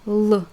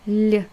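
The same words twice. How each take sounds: First: The L sound is hard, not palatalized. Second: The L sound is soft and palatalized. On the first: "your tongue is right here, right before before your front teeth" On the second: "to pronounce it soft"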